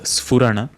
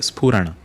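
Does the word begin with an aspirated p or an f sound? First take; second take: f; aspirated p. First: It begins with an f sound. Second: It begins with a breathy p sound. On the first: The speaker calls it wrong. "Make sure that you are not pronouncing it as Sphurana. There is no Fa" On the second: The speaker calls it right. "It is Spurana"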